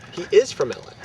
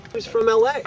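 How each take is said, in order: First: "is" punched, then falling to the end; stress on IS. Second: "L A" lifted high, rising at the end; stress on L A. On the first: Storyteller correcting the tense about the intruder, punching "is". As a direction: correct yourself with a hard "is". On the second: Storyteller explaining where the intruder was from, stressing "L A". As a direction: hit "L A" high and louder. Repeats, then corrects tense. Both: Real, not acted.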